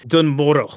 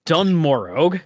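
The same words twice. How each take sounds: First: Moro said with no G, ending on the vowel; Moro without G. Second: Morog said with a hard G sounded at the end. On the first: Shown as a demonstration. Settling the name after cohost's correction, G dropped. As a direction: Dun Moro, G dropped into a glottal stop. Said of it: "G becomes a glottal stop". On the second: Real, not acted. Host voicing Morog with a final G. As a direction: Dun Morog, G clearly pronounced. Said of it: "Did you pronounce the G?".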